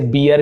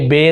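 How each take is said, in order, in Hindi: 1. इसमें दो स्वर होते हैं, जैसे 'bee-ar'। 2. इसमें एक 'e' स्वर होता है, जैसे 'bair'। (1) "इसे बियर भी बोलते हैं कई लोग" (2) "लेकिन ये बेर उच्चारण होता है, ए ध्वनि निकलता है"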